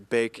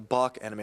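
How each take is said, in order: First: The name gets a plain, everyday pronunciation. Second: The name gets a fancier, foreign-sounding pronunciation. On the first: This is the correct local pronunciation. "I'm pronouncing it correctly" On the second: It tries to sound more sophisticated than it is. "make it sound fancier than it really is"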